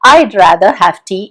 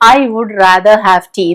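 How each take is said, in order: First: 'I would' is shortened to 'I'd'. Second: 'I would' is said as two full words. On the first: The speaker calls it right. "I'd rather have tea എന്ന് പറയും" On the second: The speaker calls it wrong. "പറയുമ്പോൾ നമ്മൾ ഒരിക്കലും I would rather have tea എന്ന് പറയില്ല"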